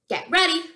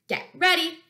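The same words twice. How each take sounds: Both takes have the same delivery.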